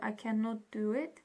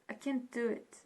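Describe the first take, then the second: First: Cannot is said in full, two syllables. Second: Cannot is contracted into one syllable. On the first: The speaker calls it wrong. "instead of saying" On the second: The speaker calls it right. "you can say"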